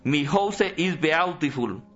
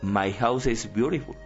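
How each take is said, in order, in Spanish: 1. Se lee con sonidos de letras al estilo español. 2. Se dice con pronunciación inglesa. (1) "¿No sabe inglés?" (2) "Se pronuncia científicamente es"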